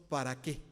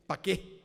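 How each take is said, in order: First: Said in the usual way. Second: "pa' qué" with "para" cut down to "pa'"; Mexico City slang. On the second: Shown as a demonstration. Preacher shows the congregation how Mexico City folks say "pa' qué". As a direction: clip it to "pa' qué" like a chilango. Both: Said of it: "¿Cómo decimos nosotros para qué?".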